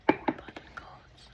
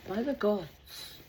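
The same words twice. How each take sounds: First: Breathy whispered oath. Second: Said in the usual way. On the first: Shown as a demonstration. Speaker whispering an oath to the gods. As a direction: hush it right down.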